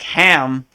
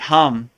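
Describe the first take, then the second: First: The vowel sounds like the a in cat. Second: The vowel sounds like the u in cup. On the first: The speaker calls it wrong. "looks like ham" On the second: The speaker calls it right. "but it's really hum"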